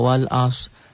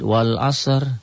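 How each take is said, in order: First: The word ends on s with no r. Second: The final r is faintly sounded after the s. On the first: It implies there is no r letter there. The speaker calls it wrong. "Jangan dibacanya wal as. Kalau wal as berarti kita memiliki keyakinan di situ tidak ada huruf ro" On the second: It means 'by time'. The speaker calls it right. "sebelum ro yang akan kita matikan itu ada sod"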